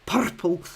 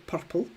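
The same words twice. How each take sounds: First: Put-on "Purple" in a Scottish accent, rolled r and a clipped first vowel; Mister Jem's Scottish accent. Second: Said in the usual way. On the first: Imitating a northerner faking Scottish on "Purple", Scottish accent. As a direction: say "Purple" the way a Scotsman would, r rolled. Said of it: "he puts on his Scottish accent". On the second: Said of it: "one of the only words that he says that actually sounds Scottish".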